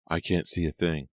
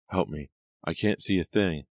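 First: Said in the usual way. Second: A girl's slightly raised plea, lightly voiced; cried shrilly. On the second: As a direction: call out for help from the floor. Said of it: "the girl cried shrilly".

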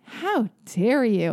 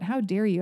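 First: Very drawn-out, playful mock indignation; mock outrage. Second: Said in the usual way. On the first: Shown as a demonstration. Host showing her absurd catchphrase, mock outrage. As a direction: stretch HOW and DARE in fake offence. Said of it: "When I say, ... and then I smile".

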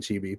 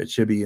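First: "Chibi" with a long ee, as in cheese; second pronunciation of Chibi. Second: "Chibi" with a short i, as in chip; first pronunciation of Chibi. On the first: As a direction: say "Chibi" as CHEE-bee. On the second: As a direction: say "Chibi" as CHIH-bee. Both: Shown as a demonstration. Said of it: "I've heard it pronounced both ways".

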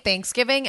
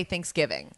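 First: "Thanksgiving" with the weight on THANKS; stress on first syllable. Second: Said in the usual way. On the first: Retold or imitated. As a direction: copy a friend's "Thanksgiving", leaning on the A. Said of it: "You put it on the A". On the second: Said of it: "I say Thanksgiving".

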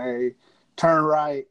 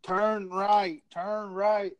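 First: Imitated intercom order. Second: Imitated cop repeating an order, each word drawn out; ornery cop. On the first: Trooper ordering a driver at a red light, intercom voice. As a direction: state trooper's terse command over the intercom. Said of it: "gets on the intercom". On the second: Trooper repeating the order to a stubborn driver, ornery. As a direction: insist on it like an irritated trooper. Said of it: "Cop is getting fucking ornery".

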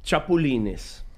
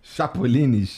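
First: Chapulines said slowly in Spanish, shapoo-LEE-nes; Spanish pronunciation. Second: Chapulines? repeated slowly as a question, shapoo-LEE-nis; slow careful repeat. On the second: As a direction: echo Chapulines? slowly, checking it. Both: Shown as a demonstration. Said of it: "Você fala, cara".

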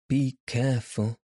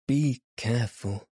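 First: A mild plea, pressing the words; gently begging her to take care; entreating. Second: A touch more pleading, falling at the end; entreating again. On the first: Little elf begging the girl to mind his suit, mild entreaty. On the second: Elf repeats his plea to the girl, understated entreaty. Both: A narrator's reading. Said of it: "entreated the little man".

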